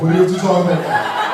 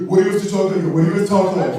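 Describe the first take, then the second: First: Mock straight guy, louder. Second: Mock straight guy. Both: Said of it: "straight guys are always like".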